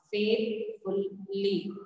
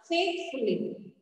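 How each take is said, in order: First: Slow "Faithfully" broken as faith, ful, ly; syllable by syllable. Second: Said in the usual way. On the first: Shown as a demonstration. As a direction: pause after each syllable of "Faithfully". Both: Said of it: "we have to split it".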